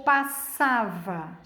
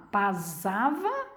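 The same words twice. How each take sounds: First: Said in the usual way. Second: "pasava" with a Z in the middle, "pazava"; wrong Z sound. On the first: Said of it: "ou passava". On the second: Shown as a demonstration. Teacher contrasting the wrong Z in "pasava". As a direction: make the S in "pasava" buzz like a Z. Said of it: "é o que eu falo".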